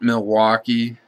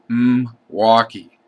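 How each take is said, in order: First: The word is said in its full standard form. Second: The word is said in a clipped local form. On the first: This is not how locals in that area say it. "It's not Milwaukee" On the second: This is how people in the eastern part of the state say it. "A lot of people in that area just say"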